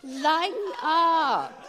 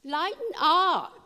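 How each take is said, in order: First: High and slow, drawn out through a laugh; the angel teasing them into laughter. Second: High, slow, drawn-out "Lighten up"; booming playful angel coaxing them to relax; angel's voice. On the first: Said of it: "he's saying". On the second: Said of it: "He's saying". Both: Retold or imitated.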